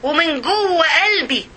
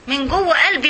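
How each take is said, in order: First: Slow, weighty "ومن جوه قلبي" with the stress on "قلبي"; emphatic slow. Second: Said in the usual way. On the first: Shown as a demonstration. Preacher stressing the heart to her listeners, slow emphasis. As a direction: dwell slowly on "قلبي".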